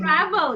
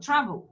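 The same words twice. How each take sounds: First: The second vowel is a full, wide-open vowel. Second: The second vowel is a weak schwa. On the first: The speaker calls it wrong. "You open mouth too wide" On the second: The speaker calls it right. "No, travel"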